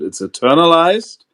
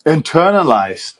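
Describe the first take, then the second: First: "internalized" punched loud and high, rising at the end; emphatic correction. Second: "Internalized" said loud and high, German-accented, falling at the end; correcting "Internalist" to "Internalized" with a heavy German accent; corrected pronunciation. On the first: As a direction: insist on "internalized" loudly, German accent. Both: Real, not acted. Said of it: "Oh, God, my German accent".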